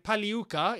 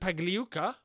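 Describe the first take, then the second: First: The G in the name is silent. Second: The G in the name is pronounced.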